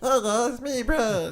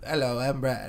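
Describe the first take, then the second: First: It is said in a higher, childlike voice. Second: It is said in a lower, near-natural voice.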